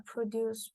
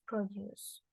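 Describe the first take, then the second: First: "produce" stressed on the first syllable; "produce" with initial stress; noun stress. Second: "produce" stressed on the last syllable; "produce" with final stress; verb stress. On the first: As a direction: say "produce" as a noun, PRO-duce, slowly. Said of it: "initial stress and words with final stress". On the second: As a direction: say "produce" as a verb, pro-DUCE. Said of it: "with final stress". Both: Shown as a demonstration.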